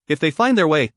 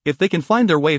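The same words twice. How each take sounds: First: "If" leaned on to cast doubt; doubtful stress on IF. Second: Said in the usual way. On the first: A narrator's reading. King doubting that allies will come, stressing "If". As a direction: put doubtful weight on the first word, "If". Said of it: "his emphasis on the first word revealing his doubts". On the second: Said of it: "his emphasis on the first word".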